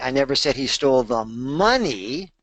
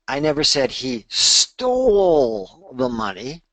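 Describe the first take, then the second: First: The word "money" carries the main stress. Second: The word "stole" carries the main stress. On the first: He stole something else. "he stole something else" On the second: He may have borrowed it instead. "maybe he borrowed it"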